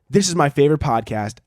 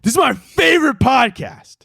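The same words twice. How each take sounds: First: It is read in a plain, flat way. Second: It is read with lively, excited energy.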